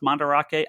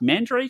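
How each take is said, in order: First: The name is said fully, as it looks. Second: The name is said in a shortened American way. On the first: "that's what it looks like" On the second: "Mandrake's like the Americans' pronunciation"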